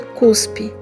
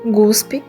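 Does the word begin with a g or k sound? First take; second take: k; g. First: The word begins with a k sound. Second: The word begins with a g sound. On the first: The speaker calls it right. "em vez de" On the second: The speaker calls it wrong. "exemplos de cacoépia"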